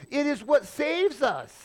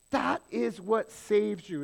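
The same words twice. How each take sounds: First: Lifted, higher reading of the verse; scripture reading voice. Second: "That" leaned on, slowed and falling; slow emphasis on That. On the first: Acted. Preacher quotes verse nine to the congregation, lifted reading voice. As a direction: read it out like holy text. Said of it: "verse nine goes on and says". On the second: Shown as a demonstration. Preacher drives the verse home to listeners, slow stress on "That". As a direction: press "That is what saves you" slowly. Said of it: "^that fall".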